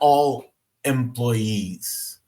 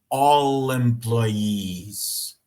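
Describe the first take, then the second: First: The two words are said separately, not linked. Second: The final consonant links into the next vowel. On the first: The speaker calls it wrong. "Não é all employees" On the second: The speaker calls it right. "Isso aqui é o mais próximo do nativo"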